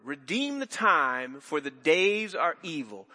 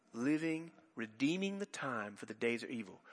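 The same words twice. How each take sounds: First: "Redeem the time, for the days are evil" drawn out slowly, each word weighted; slow quoted verse. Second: Quiet verse. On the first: Preacher quotes the verse to the congregation, slow and weighty. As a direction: read the verse very slowly and deliberately. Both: Shown as a demonstration. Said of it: "you hear that word".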